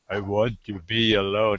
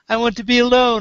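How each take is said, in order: First: It is said in a low, deep voice. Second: It is said in a wimpy, girlish voice.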